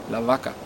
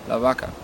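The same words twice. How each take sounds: Both takes have the same delivery.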